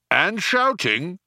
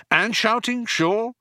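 First: Slow, high added afterthought; guard chipping in. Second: High, humouring echo; friendly condescension. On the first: Vogon guard adding to Ford's list, chipping in. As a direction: add it slowly, pitched up. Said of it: "added the guard". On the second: Ford humouring the guard who interrupted, condescending. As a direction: agree indulgently, pitched well up. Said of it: "said Ford, patting the blubbery arm". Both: Acted.

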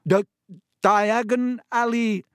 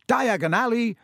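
First: High, loud choking stutter; coughed out. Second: High, raised call; shouted. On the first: Boy with a mouthful of hot ash, coughing. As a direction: choke the words out slowly through coughs. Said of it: "he coughed". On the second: Boy announcing where he goes in the fire, shouted. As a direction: call the destination out loudly. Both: A narrator's reading.

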